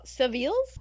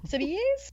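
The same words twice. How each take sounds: First: Seville's said as "suh-VEELZ", questioning; Seville's with an L before the final z; attempted pronunciation. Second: Seville's said as "sih-vee-EZ", high and questioning; Seville's with the L dropped, pitched up; alternative pronunciation. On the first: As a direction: try Seville's as "suh-veels". Trying out a butchered place name. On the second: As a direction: try Seville's as a higher "sivvy-ez". Second try at the name. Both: Shown as a demonstration.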